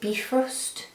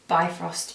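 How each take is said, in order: First: The word sounds like 'beef roast'. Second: The word does not sound like 'beef roast'. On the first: This is how the makers say it. "they pronounce it Bifrost is the correct pronunciation" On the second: This is a personal way of saying it. "I call it Bifrost because beef roast makes me think of Sunday roasts"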